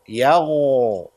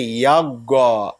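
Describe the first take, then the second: First: The consonant is a soft throaty gh sound. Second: The consonant is a hard g sound. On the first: The speaker calls it right. "The ghain is from the top of your throat" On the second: The speaker calls it wrong. "We don't say yaga because this is not from the back of the tongue"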